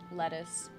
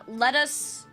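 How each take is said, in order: First: The two words run together like one word. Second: The two words are said clearly apart.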